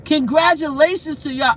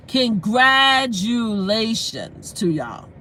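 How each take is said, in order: First: Said in the usual way. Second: Congratulations stretched out syllable by syllable; half-speed, deliberate congratulations to y'all; emphatic, drawn-out. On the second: Real, not acted. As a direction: say CONGRATULATIONS very slowly, each syllable held. Drawn-out repeat from the heart.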